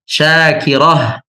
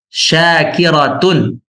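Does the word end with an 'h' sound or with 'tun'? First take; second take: h; tun. First: The word ends with a soft 'h' sound. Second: The word ends with a voiced 'tun' syllable. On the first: "Sekarang Anda baca dengan huruf akhir yang mati" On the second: "Anda baca dengan huruf akhir yang hidup"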